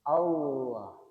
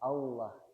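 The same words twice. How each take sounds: First: The middle consonant is a clear, heavy L. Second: The middle consonant sounds like a W, not L. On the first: The speaker calls it right. "posisi lidahnya menempel di langit-langit atas" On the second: The speaker calls it wrong. "bukan Allah. Kalau Allah, lidah kita tidak berada di posisi makhraj dari lamnya"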